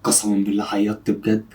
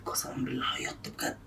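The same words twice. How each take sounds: First: Low, softened confidential voice; hushed, low admission; low aside. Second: Barely audible voiceless whisper; secretive whisper; whispered aside. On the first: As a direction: confide it quietly, pitched down. Secret aside about friend crying. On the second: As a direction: whisper it so only the camera hears. Same aside repeated in whisper. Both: Real, not acted.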